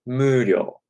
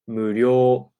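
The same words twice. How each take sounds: First: The pitch starts high on the first syllable. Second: The pitch starts low and goes up. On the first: "you could start it high" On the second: "instead of 無料 going up"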